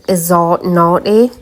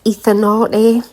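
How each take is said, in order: First: The middle consonant is a buzzing 'z' sound. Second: The middle consonant is a soft 'th' sound. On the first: The speaker calls it wrong. "I was pronouncing it Izarnate" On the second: The speaker calls it right. "which it's actually pronounced Ethanate"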